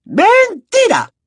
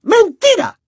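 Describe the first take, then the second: First: High, slow stretched-out yell; drawn-out shout. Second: High, quick snapping accusation; sharp shout. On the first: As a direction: draw the word out in fury. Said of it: "gritó la profesora Umbridge". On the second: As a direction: snap the word like a slap. Umbridge snaps accusation. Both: Acted.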